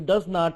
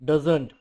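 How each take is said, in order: First: It is said as two full words. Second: It is said as one contracted word. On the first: "जो डज नॉट है" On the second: "उसको shortcut भी लिखते हैं, डजंट बोलते हैं"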